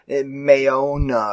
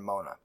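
First: The name is said with three syllables. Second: The name is said with two syllables. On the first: The speaker calls it right. "I think it's Mayona or something" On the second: The speaker calls it wrong. "we're pronouncing it wrong"

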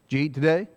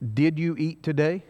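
First: It is said in a run-together Alabama dialect. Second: It is said clearly in standard English.

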